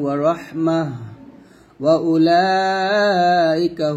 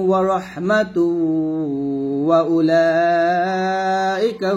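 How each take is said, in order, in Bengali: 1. 'rahmah'-এর পরে থামা আছে। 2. 'Rahmatu' পরের শব্দের সঙ্গে সোজা মিশে যায়। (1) "আমি এখানে থামছি।" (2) "মিলিয়ে পড়লে কিরকম হবে?"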